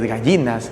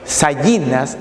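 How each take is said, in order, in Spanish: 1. La palabra empieza con un sonido g. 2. La palabra empieza con un sonido parecido a x. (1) "hoy es gallinas" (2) "la grafía G y J también se ejecutaba como una X"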